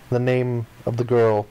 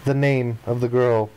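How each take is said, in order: Both takes have the same delivery.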